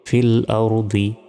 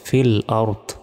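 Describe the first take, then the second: First: The phrase ends with a final -i vowel. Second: The phrase ends clipped, without the final vowel. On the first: The reading continues without stopping. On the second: The reader stops at this word.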